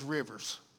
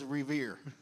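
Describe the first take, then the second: First: The name is said as Rivers. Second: The name is said as Revere. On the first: The speaker calls it wrong. "I thought it was Rivers" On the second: The speaker calls it right. "I did not know it was Revere"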